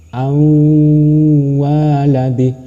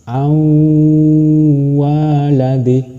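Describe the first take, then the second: The two takes are said the same way.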